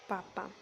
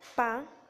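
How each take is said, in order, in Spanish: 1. La palabra se pronuncia completa hasta el final. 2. La terminación de la palabra está cortada. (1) "debería de decir papá" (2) "pérdida del elemento al final de la palabra"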